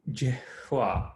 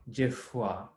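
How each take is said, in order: First: "jifwa" with a soft h-like breath before the w; usual pronunciation. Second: "jifwa" with a light f rolling off the tongue. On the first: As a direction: say "jifwa" with the f blending into an h. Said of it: "how we say that usually". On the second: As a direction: roll the f in "jifwa" softly. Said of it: "like an F kind of rolls off your tongue". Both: Shown as a demonstration.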